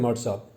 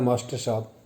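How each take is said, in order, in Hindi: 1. वाक्यांश की कुछ ध्वनियाँ छोड़ दी जाती हैं और उसे छोटा कर दिया जाता है। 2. वाक्यांश की हर ध्वनि पूरी तरह बोली जाती है। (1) "हम बोलते हैं" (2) "नाम होता है"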